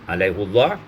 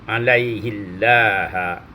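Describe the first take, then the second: First: The h is followed by a u vowel. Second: The h is followed by an i vowel. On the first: "dibaca dengan dhammah" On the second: "dibaca dengan kasrah ma tarqiqil lam"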